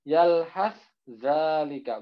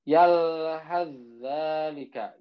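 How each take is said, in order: First: Yalhazzalika said slowly with a separate s then z; wrong reading. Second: Slow yalhazzalika with sa merged into zal; merged recitation. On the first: Teacher showing the wrong separated reading, slow. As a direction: sound both letters in yalhazzalika. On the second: Teacher showing the correct idgham, slow recitation. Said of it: "Jadi langsung dimasukkan". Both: Shown as a demonstration.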